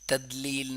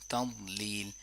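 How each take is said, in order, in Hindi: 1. दूसरा अक्षर हल्के सामान्य d से शुरू होता है। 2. दूसरा अक्षर भारी d से शुरू होता है।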